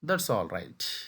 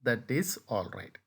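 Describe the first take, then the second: First: 'That' and 'is' are joined into 'that's'. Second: 'That' and 'is' are said as separate words. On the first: "ఈ దట్, ఈజ్ అనేది కలిపి చెప్తూ ఉండాలి"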